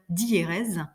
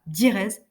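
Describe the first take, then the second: First: The first vowels are split into two syllables. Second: The first vowels merge into one syllable. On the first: The speaker calls it right. "mais bien diérèse, en insistant un petit peu sur ce son-là" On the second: The speaker calls it wrong. "on ne dit pas diérèse"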